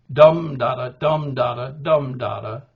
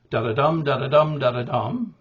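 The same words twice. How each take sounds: First: Dum da-da chanted, the first dum loud; dactyl rhythm. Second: Da-da-dum chanted, stress on the dum; anapest rhythm. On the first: Teacher chanting the dactyl beat for students. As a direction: punch the dum, then two light da-da. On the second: Teacher chanting the anapest beat for students. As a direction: beat out da-da-dum with the last syllable hit. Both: Shown as a demonstration.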